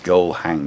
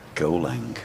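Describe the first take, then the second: First: The h sound at the start is pronounced. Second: The h sound at the start is dropped. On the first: "And it's go hang" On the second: "We don't use H's up in the north"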